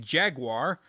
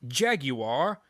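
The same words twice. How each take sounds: First: The word has an American pronunciation. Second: The word has a British pronunciation. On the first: "but I'm an American, so I say Jaguar" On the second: "It's Jaguar. If you're gonna pronounce it right"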